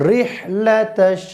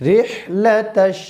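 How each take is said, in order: No difference in how they are said.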